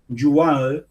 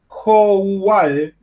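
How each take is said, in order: First: It is said the French way, with y-sound. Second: It is read letter by letter, Spanish-style. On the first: The speaker calls it right. "Yual se, se pronuncia" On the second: The speaker calls it wrong. "no lo estoy pronunciando como corresponde, lo estoy deletreando casi"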